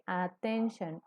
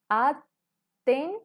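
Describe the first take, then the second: First: Said in the usual way. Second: "Attention" lento y fuerte, at... ten... shon; separado en sílabas. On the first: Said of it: "podemos identificar en esta palabra". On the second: Shown as a demonstration. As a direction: tres golpes altos con pausas en "Attention". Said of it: "Son tres sonidos". ("Attention" bien silabeado, más agudo y fuerte)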